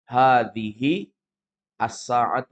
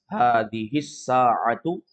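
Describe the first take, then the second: First: Each word is said separately with full vowels. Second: The words are linked and the vowel dropped.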